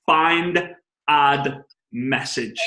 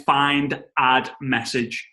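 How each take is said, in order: First: "Find", "add", "message" each said slowly and clearly as separate words; clearly articulated "Find, add, message"; careful spelling out. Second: "find, add, message" in a broad British accent, run together like "fine art message"; slurred "find, add, message" in a thick regional accent. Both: Shown as a demonstration. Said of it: "my accent makes it sound for fine art message".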